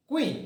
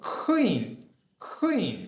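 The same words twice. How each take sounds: First: Said in the usual way. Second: কুইন, said with an aspirated k, higher; aspirated queen. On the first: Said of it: "কুইন না বলে". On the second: Shown as a demonstration. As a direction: puff the k of কুইন. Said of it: "কি বলবো". (বাতাস ছেড়ে কুইন)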